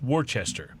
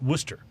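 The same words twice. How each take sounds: First: Every written syllable of the name is pronounced. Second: The name is said with fewer, shortened syllables. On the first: "the way it's spelled is" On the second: "but you pronounce it"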